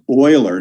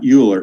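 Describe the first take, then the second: First: The name begins with an 'oy' sound. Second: The name begins with a 'yoo' sound. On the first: The speaker calls it right. "which is pronounced Euler" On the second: The speaker calls it wrong. "not Euler"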